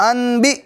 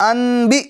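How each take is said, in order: No difference in how they are said.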